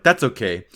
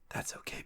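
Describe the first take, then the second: First: It is said in a normal speaking voice. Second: It starts as a whisper, rising toward normal. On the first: "you just read it in a normal voice" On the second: "you were supposed to read it in your head like this"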